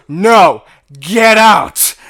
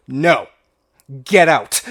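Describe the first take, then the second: First: Much louder, higher "get out", with the voice changed; the manager's final order, shouted out at full volume; full retold shout. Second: Pointing and shouting him out the door; retold shout. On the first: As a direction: bellow him out of the store. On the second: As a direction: throw him out with the voice. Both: Manager throws customer out.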